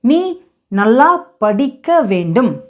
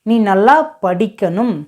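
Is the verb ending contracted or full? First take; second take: full; contracted. First: The ending is said in its full form. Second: The ending is said in a contracted form.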